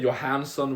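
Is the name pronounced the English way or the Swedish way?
English. The name is said with an English pronunciation. The speaker calls it wrong. "we don't say Johansson"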